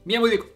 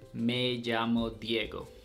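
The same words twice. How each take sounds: First: It is said in a fast Chilean accent. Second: It is said in a Colombian accent.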